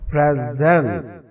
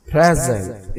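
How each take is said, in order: First: present stressed on a drawn-out gent; slow, end-stressed present; verb stress. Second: present stressed on pray, falling after it; front-stressed present; noun stress. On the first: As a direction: lean long on the last syllable of present. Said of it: "verb हो जाएगा". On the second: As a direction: hit the first syllable of present. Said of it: "इसका मतलब होगा ये noun है". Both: Shown as a demonstration.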